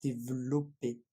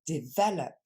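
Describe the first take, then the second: First: "Développer" as "dev-lo-pé", low; French, syllable swallowed. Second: "Develop" stressed in the middle, "de-VEL-up"; English pronunciation. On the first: Teacher shows the French habit, swallowed middle syllable. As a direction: drop the middle e of "Développer", keep the o full. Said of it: "en français on a tendance à complètement le manger". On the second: Teacher contrasts English with French, English stress. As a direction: hit "VEL" in "Develop", barely voice the ending. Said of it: "on regarde en anglais". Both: Shown as a demonstration.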